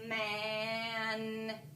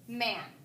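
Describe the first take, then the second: First: The sounds are stretched and blended slowly. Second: The word is said quickly as a whole.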